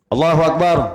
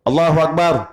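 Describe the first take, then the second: First: Every vowel in the phrase is kept short. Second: Every vowel in the phrase is kept short.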